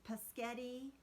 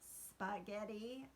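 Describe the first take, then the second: First: The word begins with a plain P sound. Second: The word begins with an S-P cluster. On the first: The speaker calls it wrong. "paschetti instead of spaghetti" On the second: The speaker calls it right. "instead of spaghetti"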